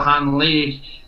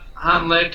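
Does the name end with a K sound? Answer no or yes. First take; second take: no; yes. First: The name ends without a K sound. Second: The name ends with a K sound. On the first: "The K is missing in some pronunciations" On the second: "is how a lot of people have said it"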